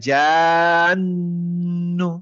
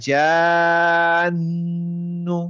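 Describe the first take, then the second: Both takes have the same delivery.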